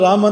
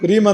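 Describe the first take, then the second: First: The first vowel is a long 'aa'. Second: The first vowel is a long 'ee'. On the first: The speaker calls it right. "ರಾಮ ಅಂತ ಹೇಳಬೇಕು" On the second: The speaker calls it wrong. "ರೀಮ ಅಂತ ಹೇಳಬಾರ್ದು"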